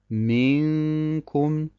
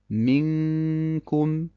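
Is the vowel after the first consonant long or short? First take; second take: long; short. First: The vowel after m is drawn out long. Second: The vowel after m is kept short. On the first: The speaker calls it wrong. "dass man die Kasra des Mim zu lange in die Länge zieht und dadurch ein Ja entsteht" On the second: The speaker calls it right. "Richtig heißt es"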